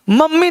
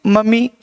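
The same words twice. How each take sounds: First: First मम्मी as "mam-mi", m held; geminated मम्मी; doubled consonant. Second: Second मम्मी as "ma-mee", one m; undoubled मम्मी; single consonant. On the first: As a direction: hum through both m's in मम्मी. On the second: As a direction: say मम्मी without doubling the m. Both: Shown as a demonstration. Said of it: "नहीं".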